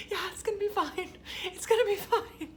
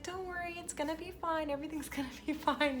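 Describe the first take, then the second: First: High, squeaky mock-tearful voice; hammed-up choked-up agreement; holding back tears. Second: High, soft soothing nurse voice; softly pitched-up imitation of reassuring; imitated reassurance. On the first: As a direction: imitate barely keeping it together, half laughing. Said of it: "you're, like, trying not to cry". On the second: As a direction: coo comfort gently at a worried mother. Nurse comforting the crying mother.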